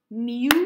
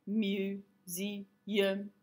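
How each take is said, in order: First: "Museum" split into three loud, separate beats; clapping way. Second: "Museum" in three soft, monotone, separated syllables; robot way. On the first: Teacher counting syllables for the class, clapping way. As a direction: punch out mu, se, um in "Museum". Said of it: "use the clapping way". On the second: Teacher showing another way to count syllables, robot way. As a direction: chop "Museum" up like a robot, all on one note. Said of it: "the robot way". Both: Shown as a demonstration.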